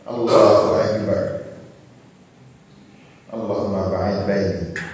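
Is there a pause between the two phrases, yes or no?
yes. A pause of some seconds separates the phrases.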